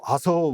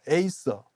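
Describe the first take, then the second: First: The first vowel is a plain 'ah' sound. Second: The first vowel is an 'ay' glide sound. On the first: It follows the old Latin reading. The speaker calls it wrong. "저렇게 읽으면은 어느 누구도 이해를 못해" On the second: It follows the English reading. The speaker calls it right. "미국 사람들 뭐라고 그러냐면 어 에이서 그렇게 해요"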